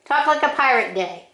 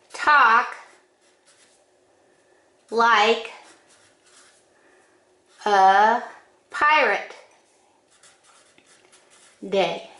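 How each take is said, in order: First: Said in the usual way. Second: Each word slowly, with long pauses; slow and spaced out. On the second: Shown as a demonstration. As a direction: draw out every word for effect.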